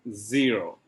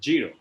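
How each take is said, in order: First: The word begins with a buzzing z sound. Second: The word begins with a j sound. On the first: The speaker calls it right. "And it's zero" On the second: The speaker calls it wrong. "most of the Indian they say zero. That is wrong"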